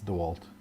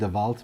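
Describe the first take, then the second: First: The name is said with an English-style sound. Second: The name is said with a German-style sound. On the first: This is how the brand is actually named. The speaker calls it right. "it's DeWalt. It's an American brand" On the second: This is the speaker's habitual way of saying it. The speaker calls it wrong. "I have a tendency to call it DeWalt"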